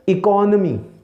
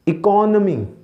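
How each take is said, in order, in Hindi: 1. n के बाद वाला स्वर uh जैसा सुनाई देता है। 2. n के बाद वाला स्वर uh जैसा सुनाई देता है।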